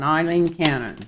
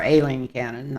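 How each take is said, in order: First: "Eileen" starting with an "eye" sound; habitual mispronunciation. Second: "Aileen" starting with an "ay" sound; corrected pronunciation. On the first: Reader naming the card question's subject, mispronouncing "Eileen" as EYE-leen. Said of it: "I'm always calling her Eileen". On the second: Reader correcting a slip in the name, saying "Aileen" as AY-leen. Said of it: "I know her name's Aileen". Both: Real, not acted.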